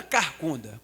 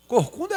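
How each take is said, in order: First: "carcunda" opening on "car", not "cor". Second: "Corcunda" opening on "cor", not "car". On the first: Preacher checking a word with listeners, "carcunda" with "car". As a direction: say "carcunda" with an a in the first syllable. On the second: Preacher checking a word with listeners, "Corcunda" with "cor". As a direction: say "Corcunda" with an o in the first syllable. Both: Shown as a demonstration. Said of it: "Corcunda é carcunda?".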